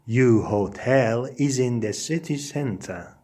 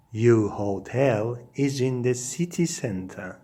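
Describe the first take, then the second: No difference in how they are said.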